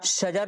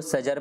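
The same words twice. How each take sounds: First: Said in the usual way. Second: सजर with s in place of sh; child's mispronunciation. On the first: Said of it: "शजर लिखा हुआ है". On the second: Retold or imitated. Teacher showing trainees how children misread, सजर with s for sh. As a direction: imitate a child's slip, saying a plain s to start सजर. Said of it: "तो वो सजर पढ़ेगा".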